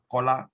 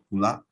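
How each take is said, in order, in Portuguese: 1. A primeira vogal soa como um 'o'. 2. A primeira vogal soa como um 'u' fechado. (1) "nós temos um O" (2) "vamos ouvir uma vogal U no português europeu"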